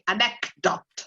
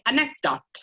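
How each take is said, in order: First: The middle C sound is clearly released. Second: The middle C sound is held back unreleased. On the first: The speaker calls it wrong. "you don't actually say anecdote because it's difficult" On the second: The speaker calls it right. "try not to pronounce the C. ... you stop where there's the C"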